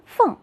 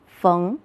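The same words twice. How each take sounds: First: 缝 as fèng with a sharp falling tone; fourth tone. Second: 缝 as féng with a rising tone; second tone. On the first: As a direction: say 缝 as fèng, starting high and dropping. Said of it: "读作四声". (缝读四声fèng，高起下降) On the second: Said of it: "读作二声". (缝读二声féng，声调上扬) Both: Shown as a demonstration.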